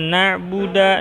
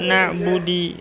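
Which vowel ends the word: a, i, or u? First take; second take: a; i. First: The word ends with an a vowel. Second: The word ends with an i vowel. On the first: "tidak boleh dibaca na'buda" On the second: "tidak boleh"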